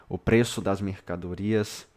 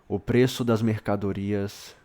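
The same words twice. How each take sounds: The two takes are said the same way.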